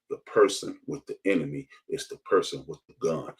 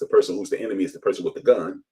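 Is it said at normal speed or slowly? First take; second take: slowly; normal speed. First: It is said very slowly. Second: It is said at normal speed.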